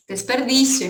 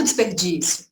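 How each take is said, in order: First: Desperdício said the Spanish way, des-per-DI-sio; teacher models Desperdício in Spanish, no accent; Spanish pronunciation. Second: Desperdício said the Brazilian Portuguese way, dis-per-DI-siu, lower; Portuguese pronunciation. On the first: Teacher demonstrates to students, Desperdício in Spanish pronunciation. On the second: Teacher contrasts for the class, desperdício in Portuguese. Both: Shown as a demonstration. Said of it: "Em português tem acento".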